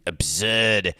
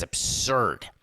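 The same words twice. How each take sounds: First: A bad, hammed-up Boston accent; Charles Emerson Winchester. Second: Said in the usual way. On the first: Host quoting a TV character to mock fans, hammed Boston accent. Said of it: "as Charles Emerson Winchester would say". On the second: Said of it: "That's the worst Boston accent ever".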